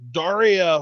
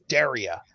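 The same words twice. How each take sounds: First: Daria said like the MTV cartoon name, DAR-ee-a; the wrong pronunciation. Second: Daria said DAIR-ee-a, first syllable like "dare"; the preferred pronunciation. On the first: Co-host correcting how a wrestler's name is said, mispronounced version. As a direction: say Daria with an open "ah" first vowel. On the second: Co-host correcting how a wrestler's name is said, proper version. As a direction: say Daria with an "air" first vowel. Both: Shown as a demonstration. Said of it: "picky about how people pronounce her name".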